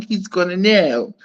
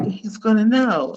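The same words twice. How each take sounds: First: Said in the usual way. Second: Lightly put-on Miami voice; a hint of Miami accent. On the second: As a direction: say it with a touch of Miami. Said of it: "in my Miami voice".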